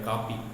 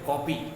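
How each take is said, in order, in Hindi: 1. पहला स्वर खुला, बिना गोलाई वाला 'aa' है। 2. पहला स्वर गोलाई वाली 'aw' ध्वनि है। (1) "अगर हम नहीं लगाएंगे तो ... कापी हो जाएगा" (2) "इंग्लिश का वर्ड है कॉपी"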